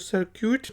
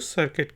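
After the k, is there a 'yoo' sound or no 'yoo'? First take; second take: yoo; no yoo. First: A 'yoo' sound follows the k. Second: No 'yoo' sound follows the k. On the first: The speaker calls it wrong. "तो सर्क्यूट नहीं है" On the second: The speaker calls it right. "यू silent है, इसको सर्किट कहेंगे"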